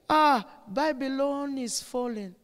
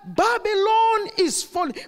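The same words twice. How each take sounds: First: The phrase is said softly and weakly. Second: The phrase is said loudly and forcefully. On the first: It sounds like a casual remark nobody would heed. The speaker calls it wrong. "he couldn't say" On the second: It is an urgent warning that demands action. The speaker calls it right. "with a mighty loud voice"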